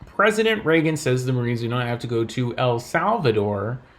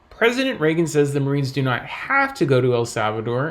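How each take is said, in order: First: The word Salvador carries the main stress. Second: The word have carries the main stress. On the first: They must go somewhere else. "implying that perhaps they have to go somewhere else" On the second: They may go if they want to. "implying that perhaps they can go if they want to"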